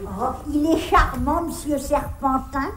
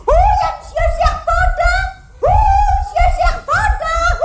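First: Lower, softer admiring aside; low, soft approval; fond remark. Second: High-pitched excited holler; whooping, high shouted hello; shouting in greeting. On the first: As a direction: settle into a contented fond comment. Fond remark after shouting his name. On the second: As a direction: call out wildly to someone far away. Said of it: "criez pas comme ça". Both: Acted.

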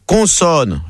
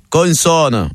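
First: Plain Parisian "Consonne"; Parisian accent. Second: Put-on "Consonne" in Marseille accent, n sounded. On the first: Acted. Parisian contestant carrying on, Parisian accent. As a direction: say "Consonne" with a Parisian nasal first vowel. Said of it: "le Parisien continue". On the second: Dédé following straight on, Marseille accent. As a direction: sound both n's in "Consonne", Marseille-style. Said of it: "Et Dédé, il enchaîne".

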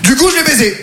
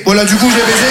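First: Raised swell on COUP, then falling away; punchline. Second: Said in the usual way. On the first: Acted. Comedian confessing his answer to racism, emphatic punchline.

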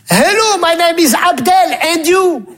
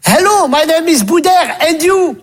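First: Higher, slower stilted schoolkid English; school English recital. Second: Higher, stilted schoolkid English; school English recital. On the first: Second pupil parroting the dialogue back, laughing. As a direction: drag it out like a clueless pupil. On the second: Pupil reciting the English dialogue to a classmate. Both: Retold or imitated.

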